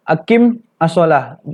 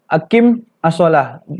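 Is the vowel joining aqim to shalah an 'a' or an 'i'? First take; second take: a; a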